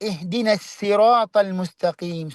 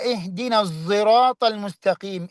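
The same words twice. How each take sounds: First: The s in sirat is plain. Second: The s in sirat is blended with z. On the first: "സീന് കൊണ്ട്" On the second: "ഇഷ്മാമ് കൊണ്ട്"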